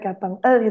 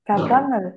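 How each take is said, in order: First: The ending is split off after a short break. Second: The ending is linked smoothly without any break. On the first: The speaker calls it wrong. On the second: The speaker calls it right.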